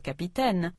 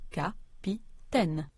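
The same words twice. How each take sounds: First: Said in the usual way. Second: "capitaine" slowly split into three evenly stressed syllables; "capitaine" as three slow, separate, equal beats. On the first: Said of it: "when French speakers say the word". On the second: Shown as a demonstration. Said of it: "they stress all three syllables equally".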